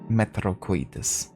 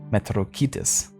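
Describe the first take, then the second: First: The middle part is said like 'coy'. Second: The middle part is said like 'kee'. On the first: The speaker calls it wrong. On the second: The speaker calls it right.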